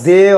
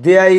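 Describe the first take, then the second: First: The name is said as one short syllable. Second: The name is said with two syllables, ending in -ya. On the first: The speaker calls it right. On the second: The speaker calls it wrong.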